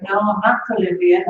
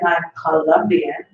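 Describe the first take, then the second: First: "Colombian" said as "Co-LUM-bian", like the university; mocking mispronunciation. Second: Slow "Colombian" with a full Spanish O; correcting pronunciation. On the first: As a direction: echo the wrong "Colombian" with an UM vowel. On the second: Retold or imitated. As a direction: stretch out "Colombian" as co-LOM-bian to correct them. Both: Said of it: "It's very different".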